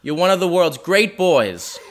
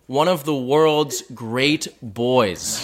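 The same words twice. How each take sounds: First: Slow, proud, lightly voiced Boston mom; a touch of a gushing mother, drawn out; mom impression. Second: Very slow, savoring Boston mom voice, laughing; quoting mom slowly. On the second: Retold or imitated. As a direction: drag out each word of mom's praise with a laugh. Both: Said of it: "That's a quote".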